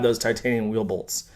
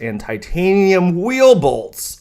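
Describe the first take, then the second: First: Quieter deadpan sarcasm; dry, muttered mock awe; sarcastic. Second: Slow, exaggerated sarcastic gushing. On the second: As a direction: drag it out with mock awe. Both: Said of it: "Sorry for being sarcastic".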